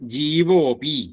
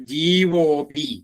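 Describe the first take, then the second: First: The words merge, the vowel a dropped. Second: The same.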